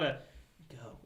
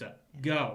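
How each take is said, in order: First: The word go is said mildly. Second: The word go is said forcefully.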